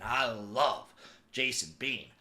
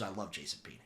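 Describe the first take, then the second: First: "love" drawn out slowly for emphasis; stress on love. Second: Said in the usual way. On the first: Real, not acted. Fan insisting on devotion to a quarterback, "love" drawn out. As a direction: lean long and hard on "love".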